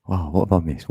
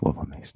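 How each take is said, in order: First: Said in the usual way. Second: Softer, whispered repeat to himself; whispered aside. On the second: Shown as a demonstration. To himself after link trouble, whispering. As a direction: echo the question under the breath. Repeats question in two takes.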